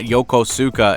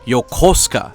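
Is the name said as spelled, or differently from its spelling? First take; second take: as spelled; differently. First: Every syllable is read out as spelled. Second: It departs from a plain syllable reading. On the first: The speaker calls it wrong. "It's not Yokosuka" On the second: The speaker calls it right. "it's Yokosuka"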